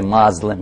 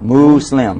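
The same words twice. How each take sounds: First: The middle consonant is a buzzing z sound. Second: The middle consonant is a hissing s sound. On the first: The speaker calls it wrong. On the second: The speaker calls it right. "Mu, say mu. Slim. Yeah, like a slim cow"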